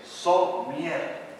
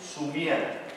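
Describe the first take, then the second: First: The first vowel is an 'o' sound. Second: The first vowel is a 'u' sound. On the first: The speaker calls it right. "es somier, como es la palabra" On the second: The speaker calls it wrong. "decimos su miel"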